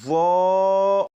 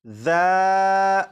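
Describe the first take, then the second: First: The letter is sounded thick and heavy. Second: The letter is sounded thin, without heaviness. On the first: "आवाज को भी मोटा करके पढ़ेंगे" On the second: "सिर्फ और सिर्फ इस हर्फ की सीडी की आवाज खत्म करने की प्रैक्टिस"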